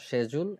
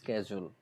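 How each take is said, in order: First: The word begins with a sh sound. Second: The word begins with an sk sound. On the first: "UK version শেজুল এমনভাবে বলে" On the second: "USA ভার্সনটা বলে স্কেজুল"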